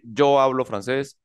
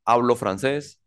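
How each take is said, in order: First: "Yo" marcado al inicio, un poco lento; énfasis en "Yo". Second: Said in the usual way. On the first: Shown as a demonstration. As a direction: subraya el "Yo" del sujeto. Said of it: "yo no tengo que decir". (el profesor resalta el pronombre "Yo") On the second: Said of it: "No es necesario decir ese yo".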